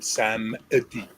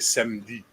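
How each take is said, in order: First: The middle e is sounded, giving three syllables. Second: The middle e is dropped, giving two syllables. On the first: "They say samedi because there's an e in the middle" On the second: "they don't say it like French. They don't say samedi"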